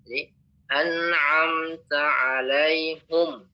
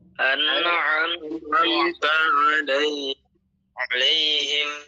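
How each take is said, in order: First: The final word ends with the vowel u. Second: The final word ends with the vowel i. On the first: "membaca ini dengan dhammah alaihum" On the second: "Yang pertama dibaca alai alaihim"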